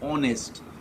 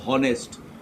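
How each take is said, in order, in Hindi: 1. शब्द सीधे o स्वर से शुरू होता है। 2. शब्द की शुरुआत में साफ़ सुनाई देने वाली h ध्वनि है। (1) "वी से ऑनेस्ट, ओ वाला उच्चारण आ रहा है" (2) "वी डोंट से हॉनेस्ट"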